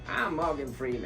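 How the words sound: The voice is high and childlike. The speaker calls it wrong. "because I was a little kid. ... It didn't sound good"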